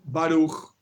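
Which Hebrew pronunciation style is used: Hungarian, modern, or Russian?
modern. It is said in the modern Hebrew way. "En hebreo moderno se dice así"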